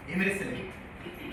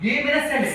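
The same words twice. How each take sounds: First: Slow, softer "ये मेरे सेल है", every word drawn out. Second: Said in the usual way. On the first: Shown as a demonstration. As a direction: spell out "ये मेरे सेल है" slowly and quietly for the class. (धीमे और नरम स्वर में "ये मेरे सेल है")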